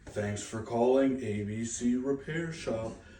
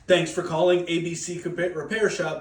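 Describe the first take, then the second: First: It is said in a flat, depressed tone. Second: It is said with lots of energy.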